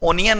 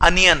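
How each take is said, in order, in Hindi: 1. पहला स्वर 'oh' जैसा बोला जाता है। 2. पहला स्वर 'uh' जैसा बोला जाता है। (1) "इसका उच्चारण ओनियन नहीं है" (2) "अनियन होता है"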